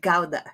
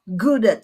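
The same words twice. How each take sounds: First: The word is said the Dutch way. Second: The word is said the American way. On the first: "in the Netherlands it's called" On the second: "You call it in the U S"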